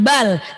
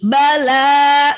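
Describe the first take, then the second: First: The final vowel is dropped, ending short. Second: The final vowel is held out long. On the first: The speaker calls it wrong. "jangan bal" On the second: The speaker calls it right. "tapi bala"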